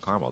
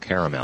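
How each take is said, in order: First: The middle vowel is dropped, giving two syllables. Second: The middle vowel is pronounced, giving three syllables. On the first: The speaker calls it wrong. "It's not caramel" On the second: The speaker calls it right. "That A isn't silent"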